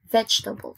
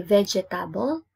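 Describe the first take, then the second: First: VEGETABLE as VEJ-tuh-bul, quick and joined; three-syllable form. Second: VEGETABLE as ve-je-ta-bol with a full "ta"; wrong four-syllable form. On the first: Teacher correcting the wrong form, three syllables. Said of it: "you say it". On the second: Teacher showing what not to say, four syllables. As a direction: say "vegetable" with every vowel, ve-je-TA-bol. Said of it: "It's wrong". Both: Shown as a demonstration.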